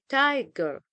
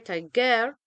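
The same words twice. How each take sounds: First: The stress is on the first syllable. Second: The stress is on the second syllable. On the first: The speaker calls it right. "we say tiger. So the stress is on the first syllable" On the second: The speaker calls it wrong. "We don't say tiger"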